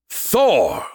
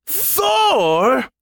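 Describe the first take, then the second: First: Raised, falling proclamation; firm announcement, pitched up a little; announcing. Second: Very high, disbelieving outburst; drawn-out rising question in outrage; indignant roar. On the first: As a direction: declare the winner. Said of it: "Skippy announced". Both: A narrator's reading.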